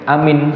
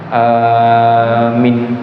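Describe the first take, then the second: First: Both vowels are short. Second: The first vowel is long, the second short. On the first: "Yang tidak boleh pendek-pendek" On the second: "panjang pendek"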